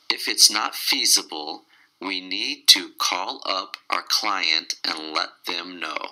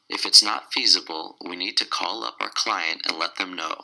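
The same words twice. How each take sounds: First: The sentence is said at a slower pace. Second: The sentence is said at a faster pace.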